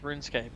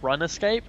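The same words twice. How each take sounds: First: The word is split as rune plus scape. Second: The word is split as run plus escape. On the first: The speaker calls it wrong. "you're pronouncing it wrong" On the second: The speaker calls it right. "It's amazing"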